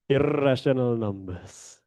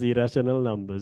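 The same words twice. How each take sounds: First: The r sound is strong and exaggerated. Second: The r sound is light and unforced. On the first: The speaker calls it wrong. "intentionally give a R pronunciation. Uh, then it sounds like Indian" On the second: The speaker calls it right. "not in that, it's just irrational numbers"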